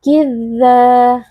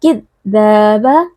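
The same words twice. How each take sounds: First: "Kidza" with a gentle, flowing dz; soft dzal. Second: "kidzaba" with a hard, halting press on dz; overpressed dzal. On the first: Teacher showing the soft reading, smooth lingering dz in "Kidza". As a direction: let the dz in "Kidza" hum on smoothly without pressure. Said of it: "lembut saja". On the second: Teacher showing what not to do, over-stressed dz in "kidzaba". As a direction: press too hard on the dz in "kidzaba", cutting its flow. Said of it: "tidak boleh dibaca kidzaba". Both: Shown as a demonstration.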